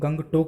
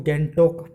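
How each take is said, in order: First: A g sound is heard after the ng. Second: The g is silent, leaving a bare ng. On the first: This is the usual pronunciation in Hindi. The speaker calls it wrong. "जिसको हम गंगटोक बोलते हैं" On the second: This is how it is read in Nepali. The speaker calls it right. "Nepali भाषा में ... गैंगटोक पढ़ा जाएगा"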